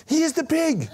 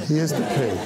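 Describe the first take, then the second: First: Put-on very high, delighted kid voice; gleeful young fan. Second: Said in the usual way. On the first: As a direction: point and announce it like a thrilled teen. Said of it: "And he said". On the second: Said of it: "And I was like".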